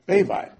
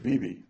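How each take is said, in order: First: The name begins with a v sound. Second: The name begins with a b sound. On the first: The speaker calls it right. "this is the correct way to pronounce the name" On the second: The speaker calls it wrong. "everybody pronounces Rav Bibi Baravai"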